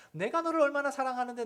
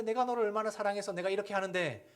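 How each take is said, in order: First: High, loud, hurt protest of a parent; pleading parent. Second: Half-voiced parent. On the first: Retold or imitated. Parent insisting to child how much they love them, high and hurt. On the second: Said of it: "라고 하는 건".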